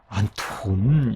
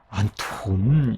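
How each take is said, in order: First: The t and h merge into aspirated th. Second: The same.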